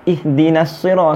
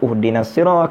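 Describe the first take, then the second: First: The first word begins with an i vowel. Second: The first word begins with a u vowel. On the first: The speaker calls it right. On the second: The speaker calls it wrong. "kenapa tak baca uhdinas sirah"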